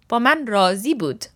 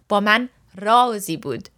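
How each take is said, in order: First: The stress in razi is on the second syllable. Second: The stress in razi is on the first syllable. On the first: He or she was satisfied with me. "which is that he or she was satisfied with me" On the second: With me there was a secret. "With me, there was a secret"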